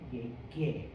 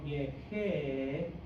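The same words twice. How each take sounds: First: The middle consonant is a hard g sound. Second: The middle consonant sounds like a breathy h. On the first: The speaker calls it right. "in order to say it right" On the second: The speaker calls it wrong. "G's before E's and I's is pronounced or like an H"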